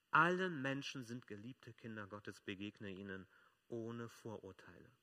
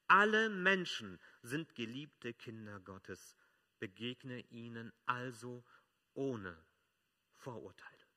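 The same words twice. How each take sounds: First: Calmer restatement. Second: Slow, loud, every word weighed; preacher pronouncing the core message; slow emphatic proclamation. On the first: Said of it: "repeated key sentence, calmer". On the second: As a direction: lean on "Alle" and draw the line out. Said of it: "repeated key sentence, slow and loud". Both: Shown as a demonstration.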